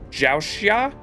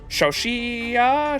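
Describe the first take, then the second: First: The name begins with a 'j' sound. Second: The name begins with a soft 'sh' sound. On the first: The speaker calls it right. "Z H is like a J" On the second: The speaker calls it wrong. "No, it'd be"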